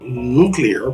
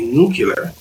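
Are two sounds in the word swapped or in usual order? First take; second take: usual; swapped. First: The sounds are in their usual order. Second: Two sounds are swapped from their usual order. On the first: "Instead of" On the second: "people say nuclear because we're more used to words like binocular"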